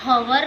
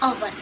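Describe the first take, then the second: First: The word begins with an h sound. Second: The word begins directly with a vowel. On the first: The speaker calls it wrong. "हम हवर नहीं बोलते हैं" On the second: The speaker calls it right. "हम बोलते हैं अवर"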